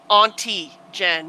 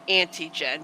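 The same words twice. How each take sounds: First: The first word starts with a broad 'ah' vowel. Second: The first word sounds like the prefix 'anti'. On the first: The speaker calls it right. "you guys have got to pronounce Auntie Jen ... pronounce it with the U" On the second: The speaker calls it wrong. "not Auntie Jen, because you sounds like you're saying ... anti-ordinary"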